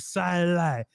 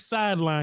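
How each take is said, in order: First: It is said in an excited, drawn-out way. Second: It is said in a plain, ordinary way. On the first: This imitates an excited announcer. "he say sideline" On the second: This is the ordinary way to say it. "He don't say sideline"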